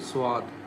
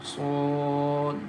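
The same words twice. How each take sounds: First: The lips change shape during the sound. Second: The lips keep one shape throughout. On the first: The speaker calls it wrong. "don't change the shape of your lips when you pronounce it" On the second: The speaker calls it right. "we recite as Swad"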